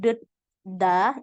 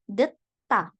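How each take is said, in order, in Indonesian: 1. Konsonan kedua adalah bunyi d yang lembut. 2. Konsonan kedua adalah bunyi t yang tegas. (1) "bukan deda" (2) "tapi langsung deta"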